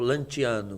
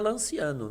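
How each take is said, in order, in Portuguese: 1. O nome é pronunciado de um jeito italiano. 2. O nome é pronunciado de um jeito português.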